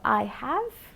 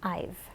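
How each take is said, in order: First: Both words are said in full, uncontracted. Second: The two words are contracted into one syllable.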